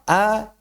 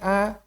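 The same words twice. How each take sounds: First: The vowel comes out through the mouth. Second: The vowel comes out through the nose. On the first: The speaker calls it right. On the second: The speaker calls it wrong. "vokal yang keluar dari rongga hidung itu nggak bagus"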